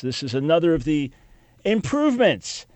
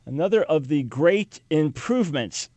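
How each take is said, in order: First: Sarcastic. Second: Dry mock praise for the great improvements; sarcastic. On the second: Host mocking new certificates, sarcastic. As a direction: say another of the great improvements with heavy irony. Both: Real, not acted. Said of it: "sarcasm there".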